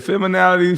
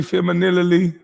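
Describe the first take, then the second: First: "feminality" pitched high, with NAL stressed in the middle; mimicked mispronunciation. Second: "femininity" pitched high, slurred toward fem-uh-NIL-ity; mimicked mispronunciation. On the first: Host mocking the man's made-up word, mimicked mispronunciation. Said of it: "He said feminality". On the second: Host mocking the man's switched word, mimicked mispronunciation. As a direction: say "femininity" high, with an L creeping into the middle. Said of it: "he changed it from feminality to femininity".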